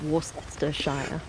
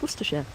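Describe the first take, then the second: First: Every written syllable is sounded out in full. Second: The syllables are squeezed together into a short form. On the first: This is how the word is written. "which is spelled Worcestershire" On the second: This is how the word is actually said. "Pronounced Worcestershire"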